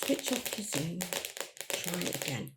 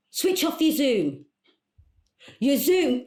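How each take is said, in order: First: Soft, low repeat to oneself; deflated muttering. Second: Higher, raised instruction; exasperated calling out. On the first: Caller alone after failed instructions, muttering softly. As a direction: mutter it under your breath, giving up. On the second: Caller instructing coach on failing Zoom, exasperated and raised. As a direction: call it firmly down a bad connection. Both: Acted.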